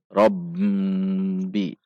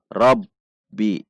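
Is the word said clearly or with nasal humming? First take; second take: nasal; clear. First: Air hums through the nose on the held consonant. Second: The held consonant is crisp with no nasal hum. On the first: The speaker calls it wrong. "Seperti ada dengungan ke hidung" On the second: The speaker calls it right. "Jelas, tegas"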